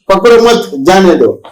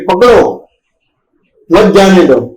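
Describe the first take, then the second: First: There is a pause right after 'mat'. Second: There is a pause right after 'pakdo'.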